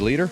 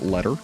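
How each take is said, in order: First: The name sounds like 'leader'. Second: The name sounds like 'letter'. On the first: The speaker calls it right. "I think it's definitely supposed to be leader" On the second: The speaker calls it wrong. "as I mispronounced your name earlier"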